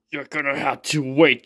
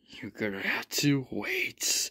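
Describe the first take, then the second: First: Said in the usual way. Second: Slow, soft unvoiced whisper. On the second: Father teasing Jin with a sly whispered secret.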